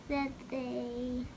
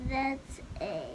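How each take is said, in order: No difference in how they are said.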